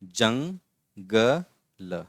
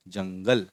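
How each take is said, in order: First: "jungle" drawn out very slowly in separate syllables. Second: Said in the usual way. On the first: Shown as a demonstration. Teacher sounding out "jungle" for pupils, syllable by syllable. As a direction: break "jungle" into slow pieces with pauses.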